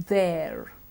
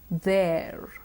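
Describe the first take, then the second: Both takes have the same delivery.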